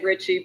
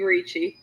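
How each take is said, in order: First: The surname is said the anglicized English way. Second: The surname is said the Italian way. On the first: This is the easier everyday version. "I just say Richie because it's easier" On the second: This is how it would be said in Italy. "If we were in Italy, I guess it would be Ricci"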